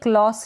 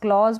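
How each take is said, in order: First: The word ends with an 's' sound. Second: The word ends with a 'z' sound. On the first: The speaker calls it wrong. "क्लॉस ना पढ़ें" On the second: The speaker calls it right. "क्लॉज पढ़ें"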